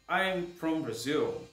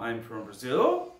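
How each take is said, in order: First: The voice falls at the end like a statement. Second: The voice rises at the end like a question. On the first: The answer sounds like a plain statement. The speaker calls it right. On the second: The answer sounds unsure, like a question. The speaker calls it wrong.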